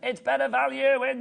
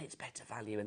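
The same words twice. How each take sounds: First: The phrase is said loudly, like a shout. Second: The phrase is said in a whisper. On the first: The speaker calls it right. "Don't whisper, shout it" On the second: The speaker calls it wrong. "Why am I whispering that?"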